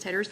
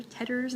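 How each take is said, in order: First: Said in the usual way. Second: "Tatters" with a put-on accent, softly; odd accent. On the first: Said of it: "instead of just Tatters". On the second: Shown as a demonstration. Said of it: "you have an accent all of a sudden".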